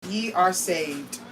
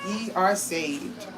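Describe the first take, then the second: No difference in how they are said.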